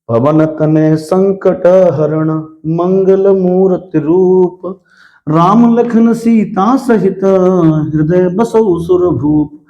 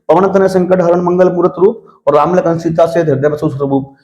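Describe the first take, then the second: First: The verse is read at a slow pace. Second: The verse is read at a fast pace. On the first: "थोड़ा सा slow motion में पढ़ूंगा" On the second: "इतना speed से मैंने पढ़ दिया"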